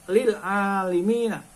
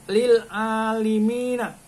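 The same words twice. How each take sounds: The two takes are said the same way.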